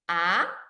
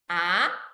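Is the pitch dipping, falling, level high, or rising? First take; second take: rising; rising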